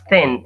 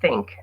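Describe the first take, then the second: First: The word ends without a k sound. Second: The word ends with a k sound. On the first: The speaker calls it wrong. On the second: The speaker calls it right.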